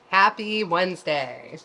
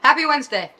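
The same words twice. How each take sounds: First: Said in the usual way. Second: Cheerful greeting. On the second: Real, not acted.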